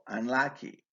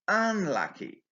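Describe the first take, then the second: First: The stress is on the second syllable. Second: The stress is on the first syllable. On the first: "usually takes the main stress on its second syllable" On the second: "the first syllable is stressed in B's response to contrast it with lucky"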